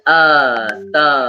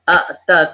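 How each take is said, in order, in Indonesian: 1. Vokal pertama yang panjang langsung menyambung ke t. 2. Hentian glotis memisahkan vokal pertama dari t. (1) "A A T A ... Yang kedua, ata" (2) "A K T A"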